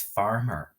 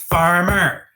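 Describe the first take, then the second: First: Said in the usual way. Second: FAR-MER, both syllables loud and high; "Farmer" called loudly, syllable by syllable; pounded syllables. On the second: Shown as a demonstration. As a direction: pound out "Farmer" in two forceful beats. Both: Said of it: "Pound out its syllables".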